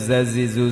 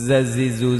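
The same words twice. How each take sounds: No difference in how they are said.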